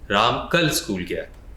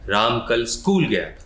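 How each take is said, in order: First: The word कल is stressed. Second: The word school is stressed.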